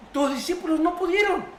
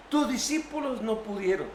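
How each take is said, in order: First: Distressed father. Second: Said in the usual way. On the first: Acted. Father tells Jesus, distressed. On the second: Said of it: "repeats the line plainly".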